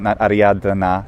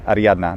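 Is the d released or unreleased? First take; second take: released; unreleased. First: The d before n is released. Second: The d before n is unreleased. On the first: The speaker calls it wrong. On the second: The speaker calls it right.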